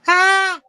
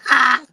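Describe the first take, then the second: First: It is a scream in a put-on woman's voice. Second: It is a scream in his own voice.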